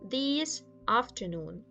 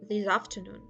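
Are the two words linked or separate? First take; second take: separate; linked. First: The two words are said separately. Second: The final consonant links into the next vowel.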